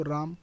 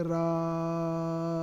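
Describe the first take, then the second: First: Said in the usual way. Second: राम with the vowel held long, stretched slowly; राम called out long like a name; drawn-out Ram. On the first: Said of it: "जैसे अगर हम पढ़ें इसको राम". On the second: Shown as a demonstration. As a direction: stretch the आ in राम for three beats. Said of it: "अब इसे हम पढ़ेंगे राम".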